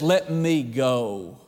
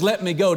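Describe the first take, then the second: First: Low, slow "Let me go", each word drawn out; the Lord pulling away, said low and slow; the Lord's words, slowed. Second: Said in the usual way. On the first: Retold or imitated. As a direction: hold back and let it fall slowly. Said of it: "and the Lord says". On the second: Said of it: "when Jesus says".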